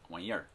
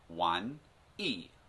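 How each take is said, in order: First: The word ends with an added r sound. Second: The word ends without an r sound. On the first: "they'll put in r on the end" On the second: "they say wan yi"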